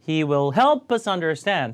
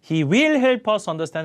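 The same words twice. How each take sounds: First: The word will is unstressed. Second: The word will is stressed. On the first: The speaker calls it right. "아니라" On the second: The speaker calls it wrong. "조동사 같은 건 강세 절대 안 줍니다... 이런 거 다 감점이에요"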